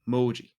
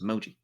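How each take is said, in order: First: The O vowel is drawn out long. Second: The O vowel is kept short. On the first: "it's like a longer O sound"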